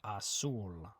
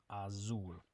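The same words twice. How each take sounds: First: The z is said like an s. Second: The z is said like a z. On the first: The speaker calls it right. "the Z makes a S sound" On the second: The speaker calls it wrong.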